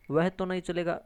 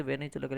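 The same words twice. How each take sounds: First: वह तो नहीं चलेगा with तो pressed a little harder; stress on तो. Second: Said in the usual way. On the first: Shown as a demonstration. Teacher showing students how तो adds emphasis, तो stressed. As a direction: lean on the particle तो to make it emphatic. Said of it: "तो पे जोर दिया है ना". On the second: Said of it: "एक तो कह सकते".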